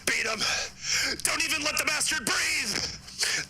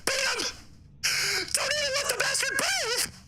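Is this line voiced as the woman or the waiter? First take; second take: waiter; woman. First: It is said in the waiter's put-on voice. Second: It is said in the woman's put-on voice.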